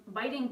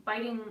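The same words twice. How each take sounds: The two takes are said the same way.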